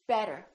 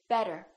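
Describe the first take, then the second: Both takes have the same delivery.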